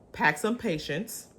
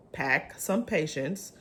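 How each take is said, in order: Both takes have the same delivery.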